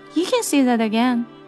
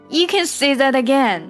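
First: It sounds plain and literal. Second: It sounds enthusiastic and strongly agreeing. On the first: The listener may repeat what they said. "那么我可能真的是说啊，你可以再说一遍" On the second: What the listener said was very well put. "这个时候我表达的就是说得真好"

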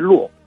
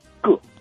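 First: The word is pronounced luò. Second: The word is pronounced gè. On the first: The speaker calls it wrong. "大多数人把它读为“落”" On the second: The speaker calls it right. "从字典上讲的，它应该读“个”"

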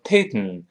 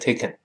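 First: The k is released through the nose. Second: The k is released through the mouth. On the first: The speaker calls it wrong. "所以不能读成taken" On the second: The speaker calls it right. "所以还是taken"

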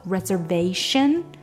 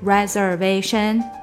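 First: The syllables have a clear strong-weak rhythm. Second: The syllables are even, with no clear rhythm. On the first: The speaker calls it right. "reservation 的一个节奏" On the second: The speaker calls it wrong. "它不是reservation，那就是好像没有节奏了"

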